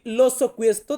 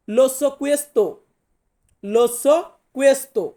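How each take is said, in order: First: Said in the usual way. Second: Very slow, word by word, "Lo so questo" with each word drawn out and the stress on "so"; slow model sentence. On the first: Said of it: "তো আমি যদি বলি". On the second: Shown as a demonstration. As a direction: say "Lo so questo" very slowly, the way a teacher models it for students. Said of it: "তাহলে আমাকে বলতে হবে".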